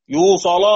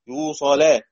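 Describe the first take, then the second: First: "يوصل" ending in a thick l and backed a; heavy lam. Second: "يوصل" ending in a thin l and fronted a; light lam. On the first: Teacher quizzes class on stopping, heavy lam. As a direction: say "يوصل" higher, with a dark final "la". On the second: Teacher quizzes class on stopping, light lam. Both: Shown as a demonstration. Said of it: "تفخم ولا ترقق؟".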